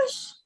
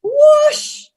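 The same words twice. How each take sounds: First: High but barely voiced "whoosh!"; soft whoosh. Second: High, loud swooshing cry; loud whoosh. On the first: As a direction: let it fade to a breath. Grandma repeats it softly. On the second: Retold or imitated. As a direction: swing it hard out loud. Grandma swings cudgel sound again.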